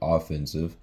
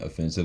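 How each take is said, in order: First: The stress is on the first syllable. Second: The stress is on the second syllable. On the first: It means the attacking side in a sports game. "I say offensive" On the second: It means insulting or hurtful. "instead of saying offensive"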